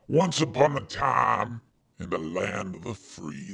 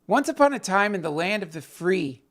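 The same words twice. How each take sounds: First: It is read in an old Southern grandpa voice. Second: It is read in the speaker's normal voice.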